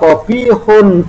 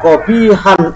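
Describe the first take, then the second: First: The word ends with the sound 'un'. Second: The word ends with the sound 'an'. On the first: The adjective follows the nominative subject status. "bisa dibaca kobihun ya, kobihun memandang ibtidaknya menjadi rofa" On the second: The adjective follows the accusative position. "boleh dibaca kobihan ... nasab"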